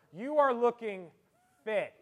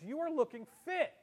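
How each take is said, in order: First: Loud lead-in, pause, FIT dropped as so-called; finger quotes on FIT. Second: Said in the usual way. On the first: Shown as a demonstration. Old schoolmate greets you, finger quotes on FIT. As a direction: hold back, then quote "fit" doubtfully. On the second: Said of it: "looks at you and says".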